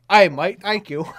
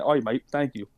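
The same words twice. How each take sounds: First: Loud, high Australian "Aye, mate" showing how it should be done; hammed-up Australian accent. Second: A light, half-hearted Australian "oi, mate"; tossing off a quick Aussie thank you, barely put on; Australian accent. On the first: Shown as a demonstration. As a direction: belt out a hammed-up Aussie thank you, high and loud. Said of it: "but you have to go". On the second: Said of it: "You doing the Australian accent was funny".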